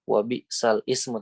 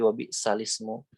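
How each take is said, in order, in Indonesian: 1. Ada jeda glotal yang memisahkan 'sal' dari 'ismu'. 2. Lam langsung menyambung ke 'ismu' tanpa jeda. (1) "bukan wabi sal ismu" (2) "tapi memang kita bacanya lamnya eh, langsung"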